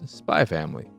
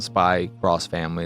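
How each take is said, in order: First: The x is silent and not spoken. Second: The x is read aloud as 'cross'. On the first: The speaker calls it right. "it's Spy Family" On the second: The speaker calls it wrong. "It's not Spy Cross Family"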